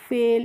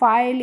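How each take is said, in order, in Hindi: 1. स्वर 'ay' जैसा है, जैसे 'day' में। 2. स्वर 'eye' जैसा है। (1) "इसको क्या पढ़ेंगे फेल" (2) "इस तरीके से नहीं पढ़ेंगे"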